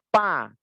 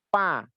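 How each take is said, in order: The two takes are said the same way.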